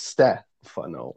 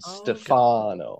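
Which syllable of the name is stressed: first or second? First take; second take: first; second. First: The stress is on the first syllable. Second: The stress is on the second syllable. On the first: The speaker calls it right. "they tend to emphasize the first syllable" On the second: The speaker calls it wrong. "rather than the second"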